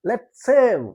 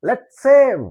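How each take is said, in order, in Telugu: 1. రెండు s శబ్దాలు ఒకటిగా కలిసిపోతాయి. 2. రెండు s శబ్దాలు ఒకటిగా కలిసిపోతాయి.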